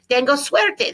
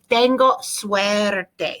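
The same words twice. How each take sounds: First: It is said at a normal speed. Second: It is said more slowly.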